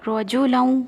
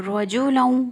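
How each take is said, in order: No difference in how they are said.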